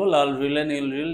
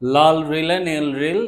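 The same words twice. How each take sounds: First: It is said at a quicker, hurried pace. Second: It is said at a slower, relaxed pace.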